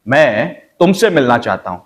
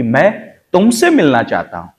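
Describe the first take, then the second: First: तुमसे pressed firmly; तुमसे stressed with a falling end. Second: तुमसे stressed, falling end. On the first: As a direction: lean on तुमसे. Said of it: "अब उसका meaning अलग हो गया". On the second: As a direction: hit तुमसे firmly. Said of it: "यानी कि मुझे मिलना है". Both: Shown as a demonstration.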